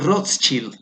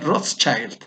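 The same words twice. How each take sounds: First: The name is read with Spanish sounds. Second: The name is said with English sounds. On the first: "Se escribe así como Rothschild" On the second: "ya agringado ... le podrías pronunciar Rothschild"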